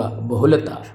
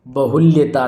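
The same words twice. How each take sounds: First: बहुलता said "bahulata", no y; correct form. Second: बहुल्यता said "bahul-yeta"; mistaken y sound. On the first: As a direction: run l straight into ta in बहुलता. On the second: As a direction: insert a y after l in बहुल्यता. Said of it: "नहीं होगा". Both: Shown as a demonstration.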